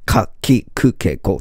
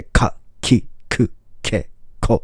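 First: Said in the usual way. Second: かきくけこ slow and breathy, each k caught sharply; かきくけこ with crisp catching k sounds; catchy consonants. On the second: Shown as a demonstration. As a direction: hook every k in かきくけこ. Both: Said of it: "引っかかった感じで".

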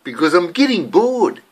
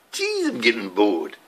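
First: Said in the usual way. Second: Lower, quieter Maori English accent. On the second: Shown as a demonstration. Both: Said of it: "I thought today I'd talk like a Maori".

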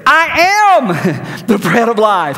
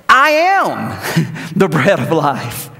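First: Slow, louder, fed-up emphasis; mock exasperated Jesus; exasperated inflection. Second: Drawn-out, weary emphasis on each word; a hint of exasperation; exasperated inflection. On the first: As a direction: say it like they haven't heard a thing. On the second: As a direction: say it like he's tired of repeating himself. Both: Shown as a demonstration. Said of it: "I just read that with that kind of inflection".

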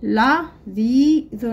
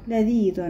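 First: لذيذ stretched slowly; لذيذ drawn out. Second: Said in the usual way. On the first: Shown as a demonstration. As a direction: read لذيذ slowly for copying. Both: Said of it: "لدينا الكلمات نقرأها".

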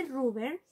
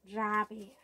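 First: "rubber" read as spelt, roo-ber with a u; spelling pronunciation. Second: "rubber" said as rah-buh, open a; spoken pronunciation. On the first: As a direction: say "rubber" as written, with a Spanish u and r. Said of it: "Se escribe rubber". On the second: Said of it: "lo pronunciamos rubber". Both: Shown as a demonstration.

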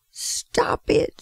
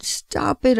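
First: Breathless whispered plea; a voiceless, pleading stop it; desperate whisper. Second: Slow, voiced, drawn-out begging; slow crying stop it, after the whisper; crying plea. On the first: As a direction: gasp it out with almost no voice, as if choking on fumes. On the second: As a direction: stretch the words out slowly, pleading. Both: A narrator's reading. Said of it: "I cried".

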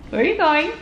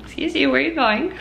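First: Playful call. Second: High, fast playful scold; mock scolding. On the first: Mom calling after toddler. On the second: Mom scolding toddler running off. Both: Real, not acted.

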